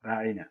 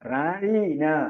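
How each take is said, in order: First: The middle vowel is said short. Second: The middle vowel is drawn out long. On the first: Please consider us. "ദീർഘമില്ലാതെ പറഞ്ഞാൽ" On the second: Our shepherd. "നീട്ടി പറഞ്ഞാലോ"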